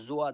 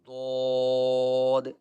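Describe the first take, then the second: First: It starts with a j sound. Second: It starts with a thick emphatic d sound. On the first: The speaker calls it wrong. "ये तीनों आवाज़ें गलत हैं" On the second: The speaker calls it right. "लेकिन इसकी सही आवाज़ मैं आपको बताता हूँ"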